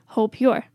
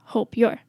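No difference in how they are said.

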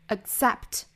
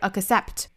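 First: The k sound is held without release. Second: The k sound is fully released. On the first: The speaker calls it right. "而是憋这么一下的爆破 accept" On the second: The speaker calls it wrong. "不要爆破出来，不是 accept"

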